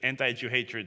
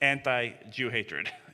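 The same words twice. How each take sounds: First: Anti and Jew are grouped, with stress on Jew. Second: Anti stands apart and carries the stress. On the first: The speaker calls it wrong. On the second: The speaker calls it right. "so it's where you enunciate the syllables there"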